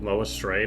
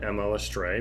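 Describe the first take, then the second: First: Mo is said as a single word. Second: Mo is spelled out as two letters. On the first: The speaker calls it right. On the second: The speaker calls it wrong.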